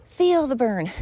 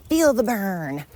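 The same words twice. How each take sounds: First: Higher, louder peppy workout coach cheer; aerobics instructor. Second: Said in the usual way. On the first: Retold or imitated. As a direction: pump it up like a fitness instructor. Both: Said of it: "Is Richard Simmons still alive?".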